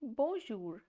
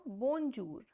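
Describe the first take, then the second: First: "bonjour" said right, zh not j; correct French bonjour. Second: "bonjour" with a hard English j, slowed down; "bonjour" mispronounced with a j as in "John"; wrong English-style bonjour. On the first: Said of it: "the pronunciation of this word is". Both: Shown as a demonstration.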